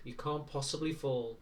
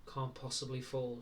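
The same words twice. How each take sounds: First: Said in the usual way. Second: Mild, quiet bitterness on "Can't possibly fall"; bitter repeat. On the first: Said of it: "giving her her first lesson". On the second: A narrator's reading. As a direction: echo it softly with a bitter edge. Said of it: "she repeated bitterly".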